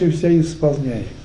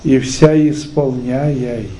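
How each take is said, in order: First: The ending of the last word is slurred. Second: The ending of the last word is clearly articulated. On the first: The speaker calls it wrong. "Да как же ты читаешь" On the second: The speaker calls it right. "Надо выговорить это четко"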